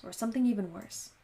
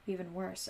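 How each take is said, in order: First: Said in the usual way. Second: "Even worse" said softer, like an echo down a hallway. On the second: A narrator's reading. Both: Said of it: "echoed through the hallway".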